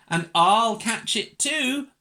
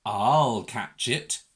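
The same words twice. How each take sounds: First: High, loud, eager little-dog voice. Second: Slow, low big-dog voice. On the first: Little dog joins the chase, high eager boast. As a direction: pipe up keenly, higher. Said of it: "thought a little dog". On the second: Big dog eyes runaway Mog, slow low resolve. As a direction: take it low and steady, drawn out. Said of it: "thought a big dog". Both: A narrator's reading.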